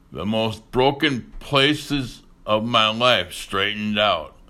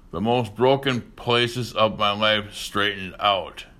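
Both takes have the same delivery.

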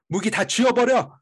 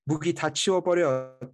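First: It is said angrily with a growl. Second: It is said in a plain, restrained way. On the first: The speaker calls it right. "a little bit more anger and angst? More passion and a little growl" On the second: The speaker calls it wrong. "I'll say it in Korean"

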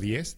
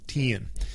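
First: The word is said plainly, with one short vowel. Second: The vowel is drawn out in a Southern drawl. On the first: "En vez de 10" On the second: "dicen 10"

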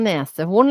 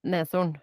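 First: The word has three syllables, with nese. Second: The word has two syllables, with nes. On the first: The speaker calls it wrong. "Sier man nesehorn" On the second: The speaker calls it right. "ikke nese"

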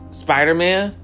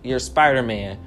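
First: It is said as a question. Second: It is said as a flat statement.

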